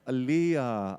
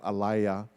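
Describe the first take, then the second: First: The middle vowel sounds like 'ee'. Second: The middle vowel sounds like 'ay'. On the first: The speaker calls it right. "Is it Aliyah? Ai, okay" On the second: The speaker calls it wrong. "And not Alaya, because Alaya no sound too nice"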